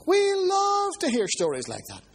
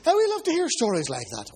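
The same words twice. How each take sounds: First: Higher, slower restatement; preacher repeats his point to the congregation, raised and slow; emphatic repeat. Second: Said in the usual way. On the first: Real, not acted. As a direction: lift it high and drag it out for emphasis.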